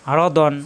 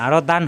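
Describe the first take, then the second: First: "দন" with a rounded o, "don"; correct rounded vowel. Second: "দান" with an open a, "daan"; wrong open vowel. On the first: Teacher modelling the right reading for learners, rounded vowel in "দন". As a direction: say "দন" with the dark o, no open a. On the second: Teacher showing learners the reading to avoid, open vowel in "দান". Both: Shown as a demonstration. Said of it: "আরো দান হবে না".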